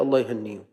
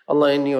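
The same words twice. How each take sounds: First: Said in the usual way. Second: "الله يهنيهم" said louder, with feeling; louder, heartfelt blessing for the martyrs; emphatic repeat. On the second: Shown as a demonstration. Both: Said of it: "repeated with emphasis".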